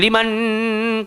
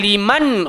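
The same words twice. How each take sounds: First: The n is held with a nasal hum. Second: The n is short without a nasal hum. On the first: The speaker calls it wrong. "tak boleh" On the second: The speaker calls it right. "maka jangan dengung"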